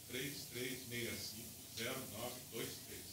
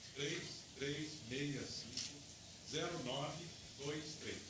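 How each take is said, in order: First: It is said at normal speed. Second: It is said slowly.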